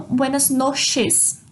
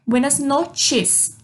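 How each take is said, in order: First: "noches" said as "noshes", no t sound; slow mistaken "noshes" for "noches"; wrong SH sound. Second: "noches" said slowly as "not-ches"; slow Spanish "noches" with "tch". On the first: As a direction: read "noches" with a Portuguese "sh". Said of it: "Não buenas noches, como fica escrito". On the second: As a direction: put a t sound inside "noches". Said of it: "O C H forma o som do T". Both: Shown as a demonstration.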